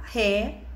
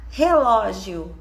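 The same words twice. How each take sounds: First: "Re-lo-gi-o" in four separate beats; syllable by syllable. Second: Said in the usual way. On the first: Shown as a demonstration. Teacher showing how the child will separate it, syllable by syllable. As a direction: leave a long gap after each part of "Re-lo-gi-o". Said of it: "Ela vai separar".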